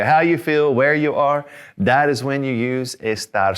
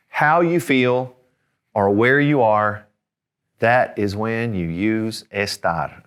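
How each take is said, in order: First: "How you feel, where you are" higher, in a running rhythm; lilting "How you feel, where you are", falling on "estar"; little rhyme. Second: Slow, spaced out for emphasis; measured delivery, one piece at a time; deliberate teaching phrase. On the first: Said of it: "Little rhyme for you". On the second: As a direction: lay out the rule slowly, pausing between parts. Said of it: "and that is this". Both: Shown as a demonstration.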